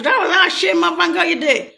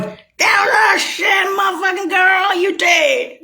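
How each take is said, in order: First: Mock shout. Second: High, shouted jeer with a cry in it; imitating an angry shouting crowd; mock Russian shout. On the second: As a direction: yell it high as if accusing her. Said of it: "Or the Russians going".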